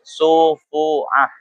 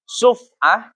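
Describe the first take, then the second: First: The f is followed by an u vowel. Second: The f is followed directly by the next consonant. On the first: "sebagian ulama fikih itu membaca domah" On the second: "paknya dibaca sukun"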